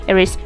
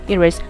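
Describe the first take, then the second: No difference in how they are said.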